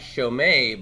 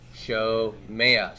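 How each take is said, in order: First: The word ends without a slipped-in 'a' vowel. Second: A short 'a' vowel slips in before the end. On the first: The speaker calls it wrong. "So it's not shomei" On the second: The speaker calls it right. "but shomea"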